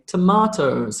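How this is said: It is said with an Australian accent. "because I have an Australian accent, I'm saying tomatoes"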